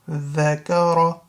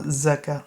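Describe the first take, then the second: First: The word begins with a soft voiced th sound. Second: The word begins with a buzzing z sound. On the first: The speaker calls it right. "that's a dhal, not za" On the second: The speaker calls it wrong. "It's not zakar"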